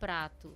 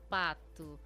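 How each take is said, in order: First: The pr cluster is said in full. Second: The r is dropped, leaving only p. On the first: "pro prato" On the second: "o pato, pro prato"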